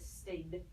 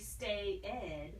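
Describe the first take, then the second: First: The word is said as a single syllable. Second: The ending is said as a separate syllable. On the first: The speaker calls it right. "It just says stayed" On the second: The speaker calls it wrong. "it doesn't say stay ed"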